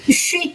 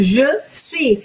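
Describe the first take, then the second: First: It is said fast, squeezed into one syllable. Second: Both syllables are said fully and separately. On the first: "a pessoa fala muito rápido ali" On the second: "A gente escreve inteiro"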